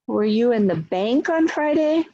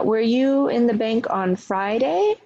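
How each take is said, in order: First: The stress falls on the word bank. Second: The stress falls on the word Friday. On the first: The question is about the place. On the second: The question is about the day.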